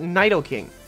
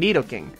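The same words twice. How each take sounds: First: The first syllable sounds like 'nye'. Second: The first syllable does not sound like 'nye'. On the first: The speaker calls it wrong. "I say nay to your Nai" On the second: The speaker calls it right. "I pronounce this Pokemon Nidoking"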